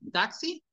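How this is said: The vowels are strong and the consonants soft. "Español, ... Suena fuerte la A, suena fuerte la I"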